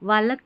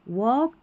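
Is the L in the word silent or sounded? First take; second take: sounded; silent. First: The L sound is clearly pronounced. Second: The L sound is left out. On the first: The speaker calls it wrong. "ऐसे नहीं पढ़ रहे" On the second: The speaker calls it right. "एल को नहीं पढ़ना है"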